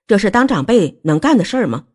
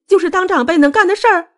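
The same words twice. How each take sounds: First: Stern rebuking question in a middle register; controlled, indignant reproach. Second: Very high, wailing retort; shrill, distraught reproach; tearful accusation. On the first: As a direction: demand it as a scolding elder. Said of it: "韩明玉也不客气地厉声说". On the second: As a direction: throw it back in a high, upset cry. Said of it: "穆小薇大哭道". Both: A narrator's reading.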